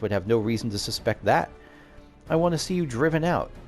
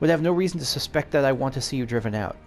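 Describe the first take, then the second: First: There is a sentence break after 'suspect that'. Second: It runs on without a break after 'that'. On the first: The wish to drive them out is a separate open statement. The speaker calls it wrong. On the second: The wish to drive them out is what would be suspected. The speaker calls it right.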